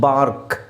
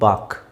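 First: The r sound after the vowel is pronounced. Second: The r sound after the vowel is silent. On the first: "ಬಾರ್ಕ್ ಅಂತ ಹೇಳೋದು" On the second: "ಆರ್ silent ಮಾಡ್ಬೋದು"

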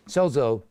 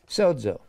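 First: The middle consonant is a plain z sound. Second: The middle consonant is a dz sound. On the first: The speaker calls it wrong. "if you ever hear somebody say sozo, sozo, that means they don't know anything about Greek" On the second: The speaker calls it right. "every time it's pronounced S-O-D-Z-O"

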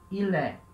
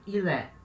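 First: The two words run together as one word. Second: The same.

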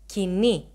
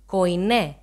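First: It is said in the modern Greek pronunciation. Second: It is said in the Erasmian pronunciation. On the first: "in modern Greek we pronounced it as Koine" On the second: "using the Erasmian pronunciation"

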